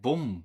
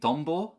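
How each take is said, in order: First: Only a clipped single syllable is said. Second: The full word is said with both syllables. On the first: The speaker calls it wrong. "he says something like bom" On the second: The speaker calls it right. "instead of saying tombo"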